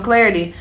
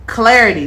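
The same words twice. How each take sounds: First: Said in the usual way. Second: "clarity" said louder, each syllable leaned on; emphasis on clarity. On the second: Shown as a demonstration. Tarot reader stressing "clarity" for her viewers, hitting it loud. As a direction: punch the word "clarity" hard. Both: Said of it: "double emphasis on clarity".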